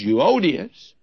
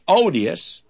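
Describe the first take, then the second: First: The name is said as Euodias. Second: The name is said like the word odious. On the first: The speaker calls it right. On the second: The speaker calls it wrong.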